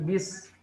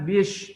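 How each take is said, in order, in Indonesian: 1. Konsonannya adalah bunyi s yang berdesis. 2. Konsonannya adalah bunyi sh. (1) "sin jadi berdesis" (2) "Jangan bish"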